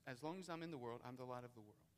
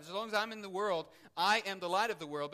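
First: Softer, lower, drawn back; soft restatement. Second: Louder and higher, pressing each word; emphatic proclamation. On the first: Preacher repeating Jesus' words to the church, softly. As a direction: say it quietly, letting it sink in. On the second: Preacher repeating Jesus' words to the church, emphatically. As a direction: proclaim it with full force. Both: Shown as a demonstration. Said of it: "he emphatically stresses here".

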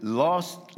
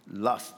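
First: "lust" said like "lost", with an open o vowel; accented lust. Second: "lust" with a short uh vowel, not "lost"; carefully fix the vowel so "lust" rhymes with "must"; corrected lust. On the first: Real, not acted. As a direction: let the vowel slip toward "lost" in "lust". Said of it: "my accent comes out sometimes". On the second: Shown as a demonstration. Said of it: "not lost".

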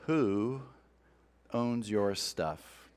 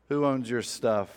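First: Asked slowly and softly, letting it hang; slow quiet question. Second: Said in the usual way. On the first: Shown as a demonstration. Preacher asking the congregation, slow and hushed. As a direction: lean in and drop the voice on the question. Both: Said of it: "let me start by asking you".

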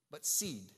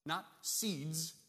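First: "seed" said firmly, single and final; "seed" with weight, singular; stress on seed. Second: "seeds" with the plural s pointed up; "seeds" marked as the wrong reading; stress on seeds. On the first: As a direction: land on "seed" as the right word. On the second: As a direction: lean on the s of "seeds". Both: Shown as a demonstration. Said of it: "Not seeds, but seed".

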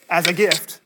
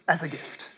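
First: "gift" hit loud and emphatic; stress on gift. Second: Said in the usual way. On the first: Real, not acted. Preacher stresses that grace is a gift, loud and emphatic. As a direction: punch "as a gift" loud to the room. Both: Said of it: "as a gift gift".

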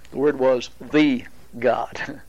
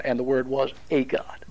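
First: Slow, with the lifted; the Word was the God, with the rising and stressed. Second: A God read softly, the a marked; the Word was a God, with weight on a; stress on a. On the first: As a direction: slowly lean on the word the. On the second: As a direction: lean on the word a, softer voice. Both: Shown as a demonstration.

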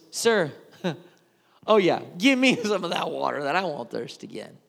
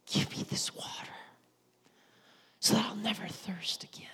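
First: Laughing scornfully through the request; mocking laugh. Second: Whispered, sincere plea for the water; earnest whisper. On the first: Woman mocking Jesus's offer of water, laughing sarcastically. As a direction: scoff while asking for the water. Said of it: "Or if it was". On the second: Retold or imitated. Woman asking Jesus for water, in a reverent whisper. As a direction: breathe the request softly and earnestly. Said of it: "I don't know if she said".

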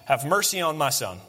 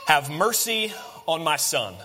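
First: Said in the usual way. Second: Drawn-out appeal for mercy; slow, weighted quote of a plea; slow solemn plea. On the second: Acted. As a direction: plead slowly, lingering on the words. Father's plea quoted, slow take.

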